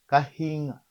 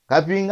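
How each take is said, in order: First: The middle consonant is an h sound. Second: The middle consonant is a p sound. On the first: "les Luba qui utilisent la lettre H à la place de P" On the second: "Kapinga avec P"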